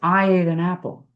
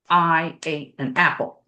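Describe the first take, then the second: First: Each vowel starts gently with relaxed, flowing air. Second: Each vowel starts with a sharp catch in the throat. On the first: The speaker calls it right. "If you relax it" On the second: The speaker calls it wrong. "a glottal attack is like"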